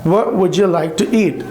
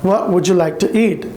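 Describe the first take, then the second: No difference in how they are said.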